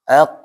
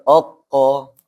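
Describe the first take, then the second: First: The first vowel is an a sound. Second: The first vowel is an o sound. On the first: The speaker calls it right. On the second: The speaker calls it wrong.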